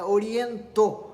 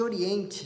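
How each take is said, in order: First: The name ends in a stressed 'toh' sound. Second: The name ends in a soft 'eh' sound. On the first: This is how early Japanese-accented speakers said it. "e ainda frisavam o to lá no final" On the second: This is the standard name. "não de Oriente"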